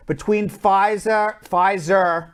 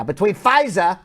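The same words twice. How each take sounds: First: A light Long Island accent slipping into Pfizer. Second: Said in the usual way. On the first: Real, not acted. Host slipping into Long Island accent on air, lightly. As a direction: lean a little into Long Island vowels on Pfizer. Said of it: "I'm using my Long Island accent now". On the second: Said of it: "my Long Island accent came in there".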